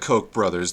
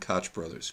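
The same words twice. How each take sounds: First: Koch does not rhyme with crotch. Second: Koch rhymes with crotch. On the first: This is the family's own preferred pronunciation. The speaker calls it wrong. "That's what they want to say" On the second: This is how most people say the name. The speaker calls it right. "Koch like crotch"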